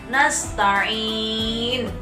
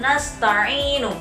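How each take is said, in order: First: The word stops on a consonant after a lengthened vowel. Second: The word ends on a short final vowel. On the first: The reading stops at this word. "kalau diwakafkan, ini panjang bacaannya sudah tidak lagi dua harokat" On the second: The reading continues into the next word. "Kalau dibaca wasol, bacanya adalah nasta'inu"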